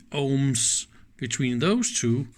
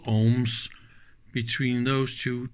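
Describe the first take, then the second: No difference in how they are said.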